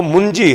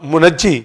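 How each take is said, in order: First: "मुंजी" in two syllables, mun-jee; correct pronunciation. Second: "मुनज्जी" with an added vowel after the न; variant pronunciation. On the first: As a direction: say "मुंजी" with no vowel between न and ज. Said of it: "जो ठीक तलफ़्फ़ुज़ है". ("मुंजी" को दो हिस्सों में, मुन-जी बोलें) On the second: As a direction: say "मुनज्जी" as mu-naj-jee, three syllables. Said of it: "मगर जो ठीक तलफ़्फ़ुज़ है". ("मुनज्जी" को तीन हिस्सों में, मु-नज्-जी बोलें) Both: Shown as a demonstration.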